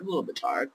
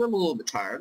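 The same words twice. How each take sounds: First: Worn-out murmur under the breath; tired echo. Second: Said in the usual way. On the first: Real, not acted. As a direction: sigh it out again, drained.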